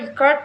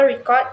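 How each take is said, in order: First: The stress is on the second syllable. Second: The stress is on the first syllable. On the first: It is a verb. "steering the second syllable" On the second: It is a noun. "with stress on the first syllable"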